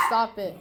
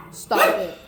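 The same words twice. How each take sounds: First: Said in the usual way. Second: Much higher, playful stop it; high playful scold. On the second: Real, not acted. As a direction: squeak it up at the dog. Telling off excited dog.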